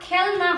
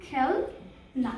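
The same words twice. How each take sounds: First: Said in the usual way. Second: খেল, pause, then না, read apart slowly; broken into syllables. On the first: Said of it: "আমরা কিন্তু খেল না বলবো না". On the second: Shown as a demonstration. Teacher reading খেল না syllable by syllable to young pupils. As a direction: split খেল and না with a clear gap. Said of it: "একটু ভেঙে ভেঙে পড়ি".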